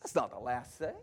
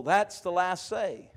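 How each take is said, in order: First: Very low, soft correction; hushed, low-pitched denial; quiet rebuttal. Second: Slow, drawn-out mock concern; slow imitation of someone fretting; voiced worried thought. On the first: Real, not acted. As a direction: drop right down to contradict it. Preacher rebuts the listeners' thought. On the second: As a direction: voice the listeners' worry, stretching it. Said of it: "And you're thinking".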